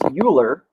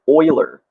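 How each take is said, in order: First: The first syllable does not sound like 'oil'. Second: The first syllable sounds like 'oil'. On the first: The speaker calls it wrong. "Many people think it's Euler. It's actually not correct" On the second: The speaker calls it right. "think of like the oil you put in your car"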